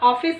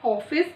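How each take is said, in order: First: The first vowel is not an open 'aw'. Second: The first vowel is an open 'aw'. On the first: The speaker calls it wrong. "इसको हम हॉस्पिटल या ऑफिस नहीं कहते" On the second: The speaker calls it right. "जब हम इसका उच्चारण करते हैं तो इसको हम ऑफिस"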